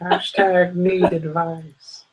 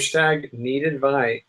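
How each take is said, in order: First: It is said in a put-on old man voice. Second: It is said in a normal voice.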